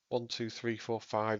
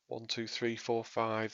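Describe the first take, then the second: First: The voice goes through the smooth EQ preset. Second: The voice goes through the clarity EQ preset. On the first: "This is the smooth" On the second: "This is the clarity preset"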